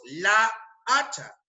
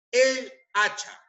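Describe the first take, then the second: First: "la hacha" lento, con las dos aes expuestas una tras otra; cacofonía demostrada. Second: "el hacha" lento y más agudo, con "el" nítido antes de "hacha"; forma correcta, separada. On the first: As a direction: di despacio "la hacha", dejando oír el choque de la a de "la" con la de "hacha". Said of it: "decir la hacha es cacofónico". ("la hacha" pausado, resaltando la a repetida) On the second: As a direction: di "el hacha" despacio, separando las dos palabras sin choque de aes. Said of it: "Se prefiere usar el artículo el". ("el hacha" articulado con claridad y pausado)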